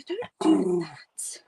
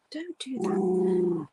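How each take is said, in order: First: Slow hushed whisper. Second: Said in the usual way. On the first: Real, not acted. Streamer hushing her dog, slow soft whisper. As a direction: breathe it quietly to the dog.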